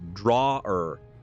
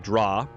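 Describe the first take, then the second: First: It is said in a careful, deliberate way. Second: It is said in a relaxed local accent. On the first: "If I try to pronounce it properly" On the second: "I have some weird accents on specific words"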